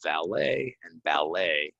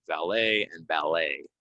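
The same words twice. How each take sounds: First: Valet and ballet slowly, silent T, ending in -ay; slow model of Valet and ballet; slower careful pronunciation. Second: Valet and ballet with no final T, ending in -ay; French ending. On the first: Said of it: "we're not gonna say this T". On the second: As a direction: model the French vowel ending. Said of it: "Words that come from French, we're not gonna say this T". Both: Shown as a demonstration.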